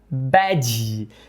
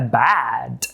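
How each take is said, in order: First: It has a Brazilian Portuguese sound at the end. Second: It ends cleanly on a final d sound. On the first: The speaker calls it wrong. "é bem provável que a gente queira pronunciar bad. E aí o gringo pode entender crachá" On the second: The speaker calls it right. "ruim é bad"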